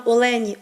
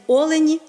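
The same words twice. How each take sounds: First: Олені stressed on the middle syllable, оЛЕні; stress on second syllable. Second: Олені stressed on the first syllable, Олені, higher and louder. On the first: Teacher contrasting two stresses of a word, stress on оЛЕні. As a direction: say олені with the beat on ЛЕ. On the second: Teacher contrasting two stresses of a word, stress on Олені. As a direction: punch the opening О of олені. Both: Shown as a demonstration. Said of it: "один наголос правильний, інший неправильний".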